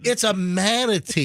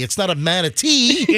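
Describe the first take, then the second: First: The last syllable is not stressed. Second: The last syllable is stressed, like Tennessee. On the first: The speaker calls it right. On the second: The speaker calls it wrong. "you're saying it like like Tennessee"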